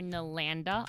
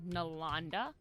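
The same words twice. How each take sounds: First: The 'an' is said like the vowel in 'sand'. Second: The 'an' is said as an open 'ah' sound. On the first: The speaker calls it wrong. "I get a lot of Nylanda or Nalanda a lot because that's the way people ... typically read the A N sound" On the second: The speaker calls it right. "it can be translated as like an ah sound. Like so, I'm Nalanda"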